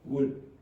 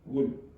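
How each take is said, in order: First: The final consonant is left off the word. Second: The final consonant is left off the word.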